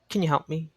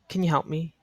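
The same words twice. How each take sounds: Both takes have the same delivery.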